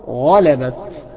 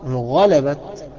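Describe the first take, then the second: The two takes are said the same way.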